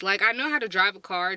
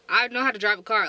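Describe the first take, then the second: First: Said in the usual way. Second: "I know how to drive a car" louder and faster; emphatic insistence. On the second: Real, not acted. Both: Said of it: "Don't get me wrong".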